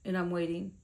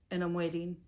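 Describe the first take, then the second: No difference in how they are said.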